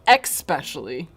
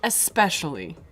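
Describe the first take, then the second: First: The word begins with an 'ex' sound. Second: The word begins with a plain 'es' sound. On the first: The speaker calls it wrong. "not especially" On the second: The speaker calls it right. "the word is especially"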